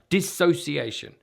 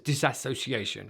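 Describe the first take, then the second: First: It has no extra syllable after the first one. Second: It has an extra syllable after the first one. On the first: The speaker calls it right. "This is dissociation" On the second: The speaker calls it wrong. "often this is mispronounced as disassociation"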